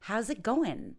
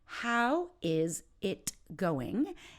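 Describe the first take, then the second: First: The words run together, with the ending dropped. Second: Each word is said fully and separately. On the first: The speaker calls it right. "we would say, I don't even pronounce the ing" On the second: The speaker calls it wrong. "instead of saying"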